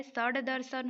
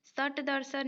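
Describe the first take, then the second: First: सड़ दर्शन with voiced retroflex d; correct d sound. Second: सट दर्शन with unvoiced retroflex t; सट दर्शन, sharp t ending the first word; wrong hard t. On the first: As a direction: say सड़ दर्शन as "sad darsan". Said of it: "होता है". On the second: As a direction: say सट दर्शन as "sat darsan". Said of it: "नहीं होता है". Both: Shown as a demonstration.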